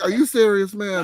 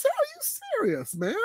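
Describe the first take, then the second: First: Higher, exasperated disbelief; incredulous. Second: Very high, slow, drawn-out and softer; incredulous. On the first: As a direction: complain at the screen in disbelief. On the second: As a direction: stretch it out high in utter disbelief. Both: Retold or imitated. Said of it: "I'm like".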